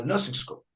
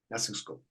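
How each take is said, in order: First: Said in the usual way. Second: "nursing school" echoed much lower and softer; soft repeat. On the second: Real, not acted. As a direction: let the repeat fall away to a murmur. Repeats phrase, then drops voice.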